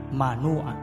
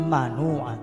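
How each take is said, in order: No difference in how they are said.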